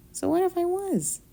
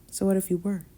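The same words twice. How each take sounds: First: High, drawn Southern Belle lilt; Southern Belle accent. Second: Said in the usual way. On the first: Acted. Southern Belle accent teasing her roommate in bed. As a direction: play it like a coy Southern Belle. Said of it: "What accent was that?". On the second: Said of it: "Southern Belle".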